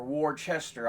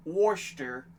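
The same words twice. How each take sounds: First: Worcester in three syllables, as "war-chester"; Worcester with a full "chester" ending; spelling pronunciation. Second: Worcester shortened to two syllables; Worcester with the middle swallowed; two-syllable pronunciation. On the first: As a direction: sound out Worcester as it is spelt, war-CHES-ter. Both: Shown as a demonstration. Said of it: "I'm not sure how it's pronounced".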